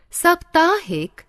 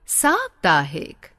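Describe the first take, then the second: First: साप्ताहिक said with a short "sə" at the start; wrong pronunciation. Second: साप्ताहिक said with a long open "saa" at the start; correct pronunciation. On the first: Teacher demonstrating the mistaken way to students, with a short first vowel. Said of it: "अशुद्ध". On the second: Teacher modelling the right form for students, with a long first vowel. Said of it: "शुद्ध". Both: Shown as a demonstration.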